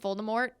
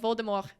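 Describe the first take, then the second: First: The final T is pronounced. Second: The final T is silent. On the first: This is how the films say it. The speaker calls it wrong. "in the movies they pronounce it" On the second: This is the intended French-style pronunciation. The speaker calls it right. "You don't pronounce the T at the end"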